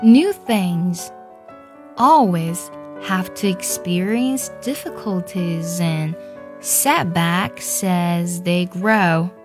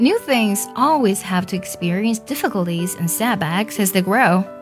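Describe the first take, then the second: First: It is read slowly. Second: It is read at normal speed.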